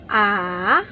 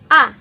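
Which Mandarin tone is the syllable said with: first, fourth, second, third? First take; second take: third; fourth. First: It is said with the third tone. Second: It is said with the fourth tone. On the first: "第第第三声 third tone A" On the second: "第四声 A"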